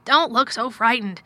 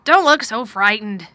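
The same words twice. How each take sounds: First: Loud, emphatic urging; exclaimed. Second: Loud, slow, troubled urging; a touch of worry, drawn out and forceful; worried. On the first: Guardian to his anxious ward, loud exclamation. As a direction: exclaim it firmly, a little higher. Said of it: "he exclaimed". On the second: Guardian to his frightened ward, worried and emphatic. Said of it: "he said in a worried voice". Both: A narrator's reading.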